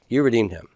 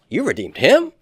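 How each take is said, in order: First: The pitch falls at the end. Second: The pitch rises at the end. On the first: It is stated as a fact. "this is probably a statement of fact" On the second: It is asked as a question. "Just raise the intonation"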